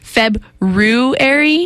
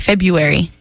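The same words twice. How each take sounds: First: The first R in the word is pronounced. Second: The first R in the word is dropped. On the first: The speaker calls it right. "because there's an R there" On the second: The speaker calls it wrong. "you just discount that and say February"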